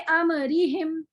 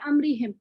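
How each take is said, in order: First: The meem is released with a slight vowel. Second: The meem is closed without any release. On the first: The speaker calls it wrong. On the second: The speaker calls it right.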